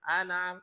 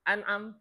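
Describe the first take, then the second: First: The word is run together without a break. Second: The word has a short break in the middle. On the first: The speaker calls it wrong. "Kalau dia terlalu cepat digesernya" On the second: The speaker calls it right. "Tapi kalau diputus"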